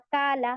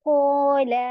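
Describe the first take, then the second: First: The long a vowel is thin and light. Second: The long a vowel is full and heavy. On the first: The speaker calls it wrong. "इसे आप ऐसे नहीं पढ़ेंगी" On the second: The speaker calls it right. "क़ाफ़ के साथ अलिफ भी हेवी होगा"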